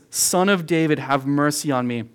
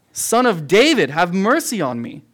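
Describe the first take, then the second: First: Said in the usual way. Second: Blind man shouting louder for mercy; loud desperate cry. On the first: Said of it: "So he says". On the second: Retold or imitated. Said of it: "he gets louder".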